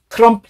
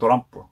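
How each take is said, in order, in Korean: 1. t로 시작하고 세 음절이에요. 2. d로 시작하고, do-ram-peu라고 발음해요. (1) "우리는 트럼프라고 쓰는데" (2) "일본은 으 발음이 없잖아요"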